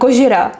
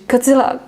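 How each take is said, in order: First: The name is said with a 'j' and an 'r'. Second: The name is said with a 'dz' and an 'l'. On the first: "I like to pronounce it like in Japan, Japanese" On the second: "How is it in English?"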